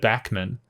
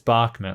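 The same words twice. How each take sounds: First: The first syllable does not sound like 'bar'. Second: The first syllable sounds like 'bar'. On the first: The speaker calls it wrong. "instead of Bachman" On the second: The speaker calls it right. "I'm pretty sure it's a bar"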